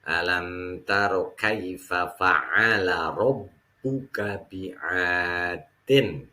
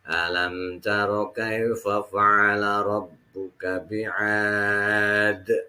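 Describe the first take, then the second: First: The last word carries on with its final -in ending. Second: The last word stops abruptly on a bouncing d. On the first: The reading continues into the next verse. "Kalau dibacanya wasol ini hanya mad tabi'i" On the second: The reading pauses at the end of the verse. "tapi kalau misalnya dibacanya waqaf"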